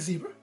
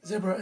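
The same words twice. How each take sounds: First: Zebra is said with an American pronunciation. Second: Zebra is said with a British pronunciation.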